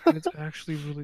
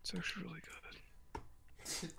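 First: Fast excited burst; loud and fast. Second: Slow breathy whisper. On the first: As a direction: blurt it out loud. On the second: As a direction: whisper it slowly. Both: Acted. Hyped then whispered repeat.

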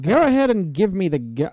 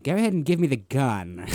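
First: Louder copy of mock British delivery; lightly echoed character voice. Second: Louder mock British movie voice; lightly mimicked film character. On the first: Co-host copying the friend's movie imitation, exaggerated British character voice. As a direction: echo the friend's film impression. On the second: Friend imitating the actor's line from the movie, exaggerated British character voice. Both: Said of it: "He's doing that the whole time".

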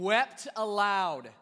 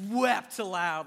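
First: Wept aloud drawn out slowly, wept hit hard; stress on wept. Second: Wept aloud repeated slower, wept pressed; stress on wept. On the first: Preacher reading the verse, stressing wept. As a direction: lean into wept, slow and heavy. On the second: Preacher repeating the verse to stress wept. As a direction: say wept aloud again, leaning on wept. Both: Shown as a demonstration. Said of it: "W-, like, wept aloud".

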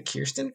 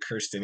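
First: "Kirsten" said as KEER-stin; correct name pronunciation. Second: "Kirsten" said as KUR-stin; mistaken name pronunciation. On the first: Checking the dietitian's name, "Kirsten" pronounced KEER-stin. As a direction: say "Kirsten" with a long EE first vowel. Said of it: "make sure I wasn't calling her Kirsten". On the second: Host quoting the earlier mistake, "Kirsten" pronounced KUR-stin. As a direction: say "Kirsten" with an UR first vowel. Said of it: "wasn't calling her Kirsten". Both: Shown as a demonstration.

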